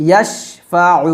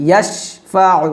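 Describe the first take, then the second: Both takes have the same delivery.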